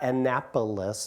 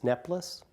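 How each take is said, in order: First: The word is said in full, all syllables. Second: The word is squeezed into two syllables. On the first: "so it's not Annapolis" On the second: "everything is contracted to the two easiest syllables"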